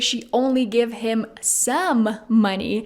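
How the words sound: The stress falls on the word some. She gave just part of the money, not all. "emphasizing the word some"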